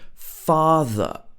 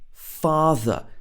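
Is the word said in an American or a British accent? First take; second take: British; British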